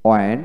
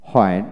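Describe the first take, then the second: First: ওয়েন starting on w, no h; ওয়েন with a plain w onset; British w pronunciation. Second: হয়েন with an audible h first; হয়েন starting on a breathed h; American h pronunciation. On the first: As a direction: drop the h in ওয়েন. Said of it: "British উচ্চারণটা হলো ওয়েন". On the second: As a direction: sound the h in হয়েন. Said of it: "আমেরিকানে হয়েন উচ্চারণ". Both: Shown as a demonstration.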